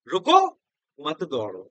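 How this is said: The pause comes after 'रुको'.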